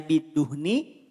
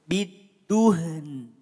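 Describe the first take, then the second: First: The final n is followed by an i vowel. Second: The word ends on a held n, no vowel. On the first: This is the original form when reading on. "asalnya bidduhni" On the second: This is the form when stopping at the pause. "Kalau waqaf berarti nunnya jadi sukun"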